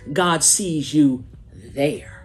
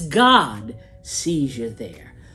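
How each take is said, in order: First: The stress falls on the word there. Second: The stress falls on the word God.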